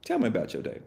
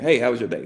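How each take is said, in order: First: Softer, inviting ask; better opener. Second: Said in the usual way. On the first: Shown as a demonstration. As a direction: invite them to open up. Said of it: "You say". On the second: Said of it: "instead of saying".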